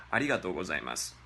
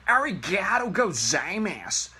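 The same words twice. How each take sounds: First: Arigato gozaimasu fast, low and clipped, native style. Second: Arigato gozaimasu higher, louder, Anglicised; cringy Arigato gozaimasu. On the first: Teacher showing the real Arigato gozaimasu. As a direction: rattle off Arigato gozaimasu naturally. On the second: Teacher mocking the wrong Arigato gozaimasu. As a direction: overdo Arigato gozaimasu like a tourist. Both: Shown as a demonstration. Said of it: "Totally different".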